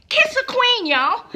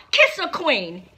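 First: High, loud call to kiss a queen; cheering the viewers on, pitched up and loud; excited cheer. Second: Said in the usual way. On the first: Real, not acted. Vlogger urging viewers to kiss drag queens, excited cheer.

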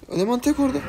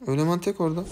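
First: Tek said higher, urgent; stress on tek. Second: Said in the usual way. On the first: Real, not acted. Streamer urges teammates toward the lone enemy, tek stressed high. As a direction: repeat it higher, leaning on tek.

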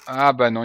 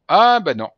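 First: Said in the usual way. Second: Higher, louder sudden catch; sudden surprise. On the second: Real, not acted. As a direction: yelp as you spot the error. Spots an error in passport.

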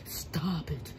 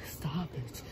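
First: Said in the usual way. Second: Breathy whispered plea. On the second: Acted. Player whispering to the game character, a whispered stop. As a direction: whisper it under your breath. Whispered then repeated aloud.

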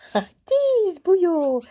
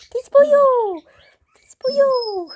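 First: Slow, high, loud playful telling-off; mock scolding. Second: Higher, louder playful yell; mock outrage. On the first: Owner mock-scolding a naughty puppy, slow and loud. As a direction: stretch it out in mock outrage. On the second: Owner yelling at the puppy in mock horror. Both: Real, not acted.

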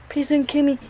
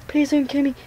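No difference in how they are said.

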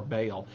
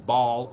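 First: "Baal" said with a long A, like "bale"; variant pronunciation. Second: "Baal" said as one syllable, like "ball"; variant pronunciation. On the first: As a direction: say "Baal" as BAY-ul, rhyming with "pale". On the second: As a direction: say "Baal" to rhyme with "tall". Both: Shown as a demonstration. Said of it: "you've heard it pronounced either way".

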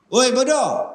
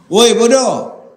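First: Milder mock insult. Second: Loud high yell of woi bodoh; shouted insult. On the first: Acted insult repeated. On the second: Acted. Ustaz shows shouting back at a man who insulted him, loud.

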